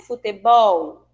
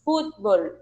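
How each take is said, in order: First: "Futebol" com a última sílaba forte, futeBOL; futebol em português. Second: "futebol" dito à espanhola, FÚTbol, tônica na primeira; fútbol em espanhol. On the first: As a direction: acentue o final: futeBOL. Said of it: "essa sílaba mais forte é a última". (futebol à brasileira, tônica no "bol") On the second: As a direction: diga FÚT-bol, forte no início. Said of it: "Em espanhol, nós falamos". (pronúncia espanhola, tônica no "fut") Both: Shown as a demonstration.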